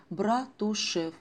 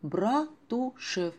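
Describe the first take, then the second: First: Slow, drawn-out Братушев; Братушев spoken very slowly and dreamily; savoring the name. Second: Братушев stretched very slowly, lingering; Братушев drawn out dreamily once more; savoring the name, even slower. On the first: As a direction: draw out Братушев slowly, tasting each syllable. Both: Acted. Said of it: "вы только вслушайтесь".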